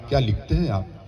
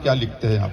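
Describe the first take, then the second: First: It sounds like an admiring exclamation of praise. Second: It sounds like a plain, genuine question.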